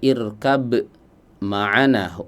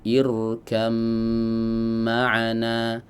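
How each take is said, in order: First: The b is pronounced before the m. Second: The b is assimilated into a doubled m. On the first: "asalnya itu dibaca" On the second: "proses idgham mutajanisain"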